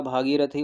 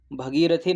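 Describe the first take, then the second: First: भागीरथी with long भा at the start; correct form. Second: भगीरथी with short भ at the start; wrong form read out. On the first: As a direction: lengthen the first vowel, भागीरथी. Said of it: "भागीरथी होता है". (भागीरथी, लंबे आ वाला सही रूप) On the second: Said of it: "भगीरथी नहीं होता". (भगीरथी, छोटे अ वाला गलत रूप) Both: Shown as a demonstration.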